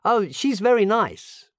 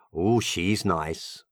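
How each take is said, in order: First: Much higher, keen and admiring; enthusiastic tone. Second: Low, slow and flat, only so-so; lukewarm tone. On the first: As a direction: sound truly taken with her. (tono entusiasta, molto più alto) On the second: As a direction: say it like she's merely okay. (tono tiepido, basso e lento) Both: Shown as a demonstration. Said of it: "cambia il tono per capire qual è".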